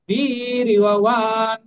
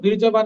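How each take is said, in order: First: The consonant after 'vir' sounds like y. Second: The consonant after 'vir' sounds like j. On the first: The speaker calls it right. "যেখানে অন্তত সেখানে ইয় উচ্চারণ করবেন" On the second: The speaker calls it wrong. "আমরা কিন্তু বীর্যবান বলবো না"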